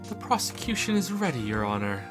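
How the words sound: It is said in a fancy, posh voice.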